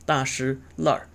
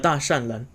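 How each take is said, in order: First: The middle syllable is weakened and the end r-colored. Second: The middle syllable is a full shan. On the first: This is the local dialect form of the name. "weakening the middle syllable ... er suffixing" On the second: This is the older established reading of the name. "they still pronounce it as Da Shan Ren"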